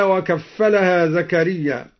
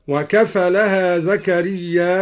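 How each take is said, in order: First: Said in the usual way. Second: وكفلها with a single light fa, زكريا ending in a long a with hamza, slowly; light fa, hamzated Zakariyya. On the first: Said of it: "قوله تعالى". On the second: Shown as a demonstration. Reciter demonstrates Duri's reading of زكريا, slow and stretched. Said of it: "بتخفيف الفاء والهمز في لفظ زكريا".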